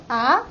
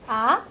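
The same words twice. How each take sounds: The two takes are said the same way.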